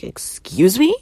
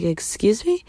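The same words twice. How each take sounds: First: Loud, high offended excuse me; affronted excuse me; indignant excuse me. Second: Higher, lighter repeat of excuse me; indignant excuse me. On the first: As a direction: recoil in disbelief. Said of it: "I was like". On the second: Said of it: "I looked at her and I was like". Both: Retold or imitated.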